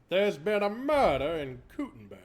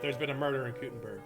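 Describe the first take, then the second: First: It is said in a put-on character voice. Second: It is said in the speaker's normal voice.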